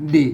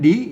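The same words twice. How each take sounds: First: The syllable is said with a low tone. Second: The syllable is said with a rising tone. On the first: It is read the Thai way. The speaker calls it wrong. "ดิมันเสียงเอกนะครับอ่านแบบไทยอ่ะ" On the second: It is read the Lanna way. The speaker calls it right. "มันก็อ่านว่าดินะครับเสียงจัตวา"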